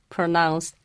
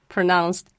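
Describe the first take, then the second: Both takes have the same delivery.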